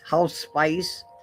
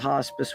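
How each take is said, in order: First: The word sounds like 'house spice'. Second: The word sounds like 'hoss-pis'.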